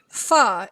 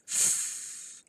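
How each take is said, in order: First: The consonant is followed by an uh vowel. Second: The consonant is clipped short with no vowel. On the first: The speaker calls it wrong. "you don't say fa" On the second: The speaker calls it right. "It's just f"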